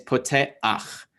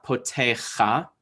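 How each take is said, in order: First: "poteach" slowly as po-te-akh, a before the final ch; vowel before consonant. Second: "potecha" drawn out slowly, ending in kha; the wrong reading "potecha", a after the throaty ch; vowel after consonant. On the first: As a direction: break "poteach" into po-te, then akh. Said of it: "a sound is gonna come before the consonant". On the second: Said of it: "It is not potecha". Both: Shown as a demonstration.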